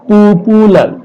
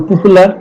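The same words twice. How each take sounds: First: পপুলার drawn out in three syllables. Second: Said in the usual way. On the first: Shown as a demonstration. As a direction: stretch পপুলার so each syllable is heard. (পপুলার শব্দটা syllable ভাগ করে টেনে বলা) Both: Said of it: "তিনটা syllable এখানে আছে".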